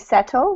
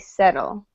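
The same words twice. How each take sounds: First: The middle consonant is a crisp T sound. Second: The middle consonant is a soft D sound. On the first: This is how people from England say it. "If you're from England, they would say settle with a T sound" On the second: This is how the speaker personally says it. "for me, I think I'm gonna say settle with a D sound"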